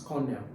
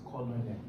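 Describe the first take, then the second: First: The first O is silent, like kernel. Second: The first O is sounded as spelled. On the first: The speaker calls it right. "It's colonel" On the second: The speaker calls it wrong. "you don't pronounce it as colonel"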